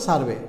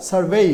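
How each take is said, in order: First: Said in the usual way. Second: "সার্ভে" ending in a stretched, rising vay-ee; long final ay. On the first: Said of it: "অনেকে বলে সার্ভে". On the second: Shown as a demonstration. Teacher corrects what many people say, long gliding ending. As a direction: draw out the last vowel of "সার্ভে". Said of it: "আসলে এটি না".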